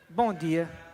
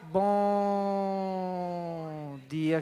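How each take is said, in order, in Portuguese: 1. É falado em ritmo normal e rápido. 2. É falado bem devagar e alongado.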